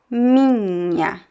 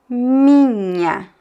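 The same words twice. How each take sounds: Both takes have the same delivery.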